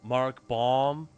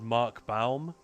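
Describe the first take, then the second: First: The surname's vowel sounds like 'or'. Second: The surname's vowel sounds like 'ow'. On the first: The speaker calls it wrong. "the Americans just they pronounce it as Mark Baum" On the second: The speaker calls it right. "I'd go for the Germanic ow"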